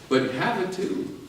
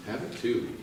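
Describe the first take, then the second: First: "have" lifted high and drawn out; stress on have. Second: "Have it too" said softly, dropping away; quiet echo of "Have it too"; soft repeat. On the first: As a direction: lean on "have", slow and rising. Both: Shown as a demonstration.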